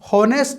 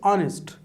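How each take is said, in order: First: The word starts with an h sound. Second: The word starts directly with a vowel. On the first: The speaker calls it wrong. "हॉनेस्ट नहीं है" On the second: The speaker calls it right. "It's ऑनेस्ट"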